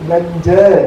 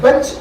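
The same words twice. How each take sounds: First: The word is said with a Malayali accent. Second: The word is said with an English accent. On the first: The borrowed word is adapted to Malayalam. "മലയാളത്തിന്റെ വെള്ളത്തിൽ മുക്കി ജ്ഞാനസ്നാനപ്പെടുത്തി ബെഞ്ച് എന്ന് പറയും" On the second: This is how the English say it. "സായിപ്പ് ബെഞ്ച് എന്ന് പറയും"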